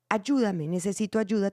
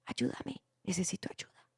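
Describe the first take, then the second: First: Said in the usual way. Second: "Ayúdame, necesito ayuda" whispered, much softer, almost no voice; in a low voice. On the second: Shown as a demonstration. Director showing an actor's too quiet line, whispered. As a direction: breathe the plea out in a whisper. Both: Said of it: "¿Tú por qué lo dices en voz baja?".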